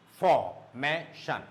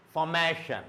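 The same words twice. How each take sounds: First: Formation slow and low, for, may, shun apart; syllable by syllable. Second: Said in the usual way. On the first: Shown as a demonstration. Teacher isolating the syllable before shun, syllable by syllable. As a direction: pause between each beat of formation. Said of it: "three syllables". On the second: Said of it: "it should go up".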